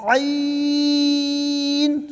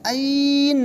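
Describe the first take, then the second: First: عین from the throat, ee held very long; long chanted throaty عین; drawn out. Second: عین stretched without the throat sound; long, throatless عین; wrong plain vowel. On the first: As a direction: stretch عین on one higher even note. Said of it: "کھینچ کے پڑھیں گے". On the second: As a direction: draw out عین as a plain ain, falling. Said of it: "نہیں". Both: Shown as a demonstration.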